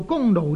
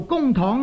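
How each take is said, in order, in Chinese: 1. 第二个音节读 nou。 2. 第二个音节读 tong。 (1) "读做公奴呢亦可以的" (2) "读做公堂呢是亦可以"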